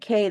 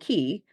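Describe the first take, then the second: First: The word is said like 'kay'. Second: The word is said like 'key'. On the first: The speaker calls it wrong. "We've been pronouncing it K the whole time" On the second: The speaker calls it right. "until we were informed it's Ocean Key"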